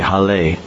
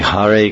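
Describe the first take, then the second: First: The second syllable starts with an l sound. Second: The second syllable starts with an r sound. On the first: "they say Hale" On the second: "they don't say Hare Krishna"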